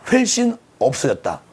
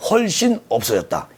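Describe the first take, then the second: First: 훨씬 with its first vowel fronted to "hwel"; Chungcheong pronunciation. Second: Said in the usual way. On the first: Real, not acted. Reading the post aloud, 훨씬 slipping into Chungcheong "hwel-ssin". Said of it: "충청도 발음이 너무 많이 나와서".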